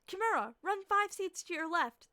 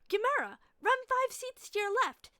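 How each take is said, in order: First: It is read in an ordinary narrating voice. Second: It is read in a put-on character voice.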